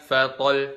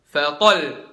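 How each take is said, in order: First: The doubled final sound gets no extra lift. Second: The voice is lifted on the doubled final sound. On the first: The speaker calls it wrong. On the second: The speaker calls it right.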